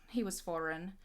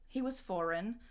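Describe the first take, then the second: The two takes are said the same way.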